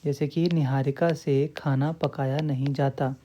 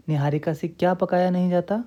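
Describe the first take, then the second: First: Said in the usual way. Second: क्या lifted and leaned on as the question word; stress on क्या. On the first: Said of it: "क्या का उत्तर आपको मिल रहा है". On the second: Shown as a demonstration. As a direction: hit क्या, rising a little. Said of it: "क्या का उत्तर आपको".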